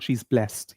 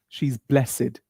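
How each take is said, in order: First: Blessed ends with a 't' sound, one syllable. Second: Blessed ends with an 'id' sound, two syllables. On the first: The speaker calls it wrong. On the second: The speaker calls it right. "So the ed here is pronounced as id"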